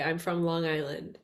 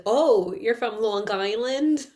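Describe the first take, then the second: First: Put-on "I'm from Long Island" with a light Long Island accent. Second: "Oh, you're from Long Island?" drawn out slowly with an exaggerated accent; mocking Long Island accent. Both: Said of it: "that's not how I said it".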